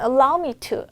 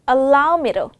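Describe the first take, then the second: First: The word 'to' is said as a clear 'to'. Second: The word 'to' is softened to a 'ru' sound. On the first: "루 발음하기 너무 힘들어요 라고 하신다면 allow me to" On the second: "allow me로 이렇게 가주시면 되는데"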